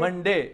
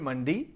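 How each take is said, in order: First: The word ends with an 'ay' sound. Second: The word ends with an 'ee' sound.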